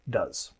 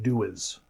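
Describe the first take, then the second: First: The word is said as one syllable. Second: The word is split into two syllables. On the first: The speaker calls it right. "We say does" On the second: The speaker calls it wrong. "It doesn't sound like do is"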